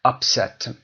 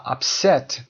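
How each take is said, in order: First: "Upset" as UP-set, the noun; stress on first syllable. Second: "upset" as up-SET, adjective or verb; stress on second syllable. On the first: Teacher contrasting noun with adjective, "Upset" stressed on UP. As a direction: hit the start of "Upset". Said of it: "استرس در قسمت اول میاد". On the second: Teacher showing the non-noun form, "upset" stressed on SET. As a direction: hit the end of "upset". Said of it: "Upset و upset دیگه noun نیست". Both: Shown as a demonstration.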